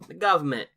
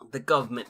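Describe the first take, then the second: First: It is said in a put-on Cockney accent. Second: It is said in the speaker's ordinary accent.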